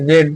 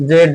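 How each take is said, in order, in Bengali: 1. অক্ষরটি 'zed' হিসেবে উচ্চারিত হয়। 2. অক্ষরটি 'zed' হিসেবে উচ্চারিত হয়।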